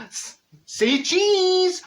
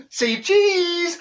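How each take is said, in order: First: High, slow sing-song say cheese; sing-song camera call; photographer's call. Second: High, loud say cheese; bright camera call; photographer's call. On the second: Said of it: "here's Neville again". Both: Retold or imitated.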